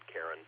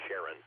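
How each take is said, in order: First: The name begins with a k sound. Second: The name begins with an sh sound. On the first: It refers to the mythological figure. "not Karen. But mythologically, Karen, I think, is the right choice there" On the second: It refers to the moon of Pluto. "when you're referring to the, pl- the planet and the moon, Pluto's moon, uh, Sharon is actually t- more typically pronounced Sharon"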